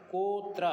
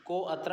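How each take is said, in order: First: कोत्र said as one joined word, with no separate अ; कोत्र run together with the अ silent, said firmly; correct sandhi form. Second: को अत्र said as two words, with the अ of अत्र spoken; को and अत्र kept apart, sounding the अ of अत्र; wrong split form. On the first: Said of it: "कोत्र ऐसे बोलना पड़ेगा". (कोत्र को एक शब्द में, अ को मौन रखकर बोलें) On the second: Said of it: "को अत्र ऐसे नहीं बोलना पड़ेगा". (को अत्र को अलग-अलग, अत्र के अ के साथ बोलें) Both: Shown as a demonstration.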